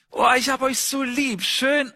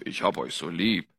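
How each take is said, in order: First: Higher, tender and doting; loving voice to kids. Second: Much lower and softer, a deep rumble. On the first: Father tells his children he loves them, tender and higher. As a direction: pour all your love into it, like hugging your kids. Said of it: "Ich werde sagen". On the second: Preacher shows the deep voice against the loving one, low and soft. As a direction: drop the voice way down as the contrast. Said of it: "die ist da nicht so tief". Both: Shown as a demonstration.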